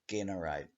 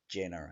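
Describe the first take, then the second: First: The first g is hard, as in get. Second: The first g is soft, as in jam. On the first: This is the original way to say it. The speaker calls it right. "changed from generate" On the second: This is the changed modern way to say it. The speaker calls it wrong. "to generate"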